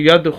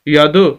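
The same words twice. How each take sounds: First: The final d is held still without a bounce. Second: The final d is released with an echoing bounce. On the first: The speaker calls it wrong. "अगर हम कलकला ना करें ... जो कि गलत है" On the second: The speaker calls it right. "हम दाल की आवाज़ को यहाँ पर हिला रहे"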